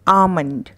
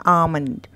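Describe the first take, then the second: Both takes have the same delivery.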